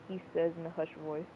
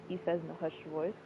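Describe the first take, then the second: The two takes are said the same way.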